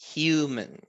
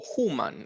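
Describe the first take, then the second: First: The U vowel is long. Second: The U vowel is short. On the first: The speaker calls it right. "Es human. Tiene un sonido largo esa U" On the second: The speaker calls it wrong. "humano no es human"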